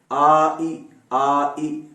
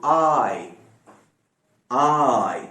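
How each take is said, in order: First: आ and ई said as two separate sounds; two separate vowels. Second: आई glided as one drawn-out sound; fluent joined आई. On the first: Teacher building the sound for students, आ and ई separately. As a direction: split आ ई slowly into its two vowels. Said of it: "अब थोड़ा सा fluently बोलकर". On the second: Teacher showing students the fluent sound, आई as one long glide. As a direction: join आ into ई smoothly, mouth opening wide. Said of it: "fluently बोलकर दिखाएं उसको". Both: Shown as a demonstration.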